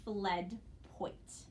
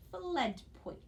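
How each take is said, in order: First: "fled" rising, pause, then "poit"; syllable by syllable. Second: "Fled poit" joined up, "Fled" higher, falling after; blended word. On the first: Teacher models the pupil's reading, "fled poit" in separate syllables. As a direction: sound out "fled", stop, "poit". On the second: Teacher models the pupil's reading, "Fled poit" blended together. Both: Shown as a demonstration. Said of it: "I bet you read".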